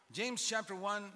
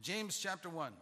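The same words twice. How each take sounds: The two takes are said the same way.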